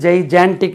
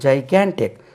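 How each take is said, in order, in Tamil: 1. இரண்டாவது மெய்யெழுத்து j ஒலி. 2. இரண்டாவது மெய்யெழுத்து கடின g ஒலி. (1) "ஜெய்ஜான்டிக் என்று சொல்லி கொடுத்தாங்க ... தவறாகவே சொல்லி கொடுத்தாங்க" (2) "இது ஆக்சுவலி ... ஜாய் கேன்டிக்"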